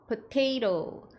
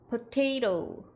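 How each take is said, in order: Both takes have the same delivery.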